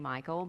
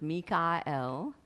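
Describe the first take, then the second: First: The name ends with an 'ol' sound. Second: The name ends with an 'el' sound. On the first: This is the everyday English form of the name. "I'll just say Michael" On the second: This is the original Hebrew form of the name. "which is the way it is pronounced by him"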